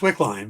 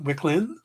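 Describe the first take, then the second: First: The last syllable sounds like 'line'. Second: The last syllable sounds like 'lin'. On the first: The speaker calls it right. "it's just Wickline" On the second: The speaker calls it wrong. "everybody's like"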